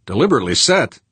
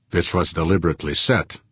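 First: "Deliberately set?" higher, louder, rising at the end; incredulous echo. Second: Put-on accented statement. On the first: Acted. Tycoon challenging the arson claim, "Deliberately set?" pitched up and rising. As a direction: throw "Deliberately set?" back as a question. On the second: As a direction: state "deliberately set" as settled fact. Accented man makes an accusation.

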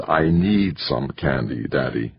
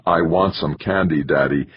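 First: Slow, drawn-out "need", falling away low on "Daddy"; pleading child's need. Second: Said in the usual way. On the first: Acted. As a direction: stretch out "need" like a toddler who must have it. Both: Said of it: "discovered the difference between".

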